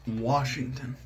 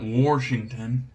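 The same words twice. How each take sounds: First: Washington with no R, "Wahshington"; standard pronunciation. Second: Washington said "Warshington", with an intrusive R; wrong pronunciation. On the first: [name] correcting the weirdos, no R in Washington. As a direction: open "wah" at the start of Washington, slowly. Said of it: "It's not Washington". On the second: [name] rejecting the weirdos' way, R added in Washington. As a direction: stretch out an R in Washington's first syllable. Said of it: "Where's the R in wash?". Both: Shown as a demonstration.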